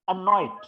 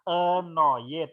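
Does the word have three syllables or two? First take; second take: two; three. First: The word is said with two syllables. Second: The word is said with three syllables. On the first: The speaker calls it right. "Ini dua" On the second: The speaker calls it wrong. "Kalau annoyed kan tiga suku kata"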